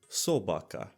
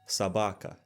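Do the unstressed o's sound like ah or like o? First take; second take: o; ah. First: The unstressed o sounds like o. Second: The unstressed o sounds like ah. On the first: This is the Ukrainian pronunciation. "in Ukrainian would sound like" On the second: This is the Russian pronunciation. "unstressed O's make an ah"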